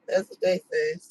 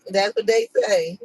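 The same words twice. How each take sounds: First: Much higher, squeaky mock take. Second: Said in the usual way. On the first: Shown as a demonstration. Repeating the saying to the camera in a mock high voice. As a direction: toss the saying off in a silly high voice.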